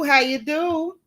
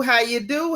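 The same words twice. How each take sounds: First: How you do sung higher and playful; playful sing-song. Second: Said in the usual way. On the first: Real, not acted. Host greeting a viewer again, higher and playful. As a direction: toss the greeting up high, teasing.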